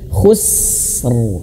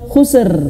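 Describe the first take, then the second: First: The s sound is held with flowing air first. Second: The s sound is cut short before the r. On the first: The speaker calls it right. "tahan dulu huruf sinnya" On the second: The speaker calls it wrong. "jangan khusr"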